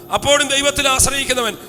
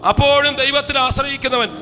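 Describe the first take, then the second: No difference in how they are said.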